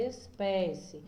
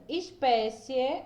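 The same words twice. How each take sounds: First: Said in the usual way. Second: Slow demo word. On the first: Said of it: "vou escrever ela aqui". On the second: Shown as a demonstration. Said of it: "Por exemplo".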